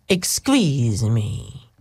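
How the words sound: It is said in a Greek Dracula-like voice.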